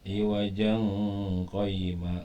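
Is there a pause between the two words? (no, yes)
no. The words run together with no pause. The speaker calls it wrong. "enggak boleh dibaca ikhfa"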